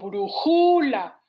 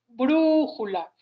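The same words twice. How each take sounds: First: The stress is on a later syllable. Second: The stress is on the first syllable. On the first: The speaker calls it wrong. "porque no digo brújula" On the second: The speaker calls it right. "la sílaba tónica es brújula"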